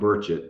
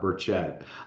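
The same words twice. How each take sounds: First: The stress is on the first syllable. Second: The stress is on the second syllable. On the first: The speaker calls it right. "he made me promise to to set this straight every time. It's Tim Burchett" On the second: The speaker calls it wrong. "not Burchett"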